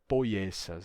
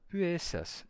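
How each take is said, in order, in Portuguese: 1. A vogal é falada como o ditongo oi. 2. A vogal é falada como um u simples. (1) "não poiessas" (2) "É puessas"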